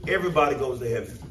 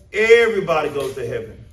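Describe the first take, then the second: First: Said in the usual way. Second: Everybody goes to heaven said louder and firmer, stress on Everybody; emphatic repeat. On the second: Shown as a demonstration. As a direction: lean on Everybody as if quoting the crowd. Repeats popular funeral belief, louder.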